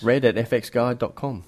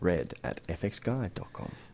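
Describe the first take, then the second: First: It is said at normal speed. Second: It is said more slowly.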